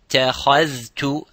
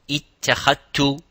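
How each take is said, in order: First: The dh and t are both clearly pronounced. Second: The dh is merged into a single t. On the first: The speaker calls it right. "both of them have to be observed" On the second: The speaker calls it wrong. "and not"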